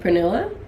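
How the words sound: The name is said the English way.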